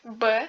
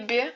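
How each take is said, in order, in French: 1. La consonne est dure, sans palatalisation. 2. La consonne est molle, avec palatalisation. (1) "qui est dur" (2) "qui est un son mou"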